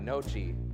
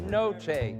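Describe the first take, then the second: First: The word ends in an 'ee' vowel. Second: The word ends in an 'eh' vowel. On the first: The speaker calls it wrong. "It's not nochi either. That's the good Iowan try" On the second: The speaker calls it right. "It's noche"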